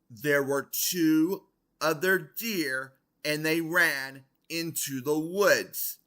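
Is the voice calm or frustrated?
frustrated. It is said in a raised, frustrated, stern voice.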